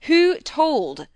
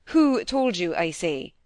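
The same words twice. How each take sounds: First: Loud, high, forceful demand; very stern. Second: Sudden sternness. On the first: Husband begins his question once more, very stern. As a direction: demand it sternly, much louder. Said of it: "sterner than ever". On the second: Husband confronts his frightened wife, sudden sternness. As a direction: demand an answer with sudden sternness. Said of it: "his sudden sternness of voice and manner". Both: A narrator's reading.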